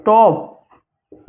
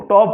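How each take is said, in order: First: टॉप with a long, stretched ओ; drawn-out o in top. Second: Said in the usual way. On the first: Shown as a demonstration. (टॉप का ओ खींचकर धीरे बोलो) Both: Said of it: "टॉप ओ वाला".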